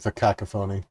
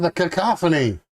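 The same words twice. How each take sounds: First: "cacophony" as KAK-uh-FOH-nee, stress on the first and third syllables; "cacophony" with a long "foh" near the end; corrected pronunciation. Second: "cacophony" as kuh-KAH-fuh-nee, stress on the second syllable; "cacophony" with a short "kah" in the middle; first pronunciation. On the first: Shown as a demonstration. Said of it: "I'm sorry. I meant". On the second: Real, not acted. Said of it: "I meant the cacophony".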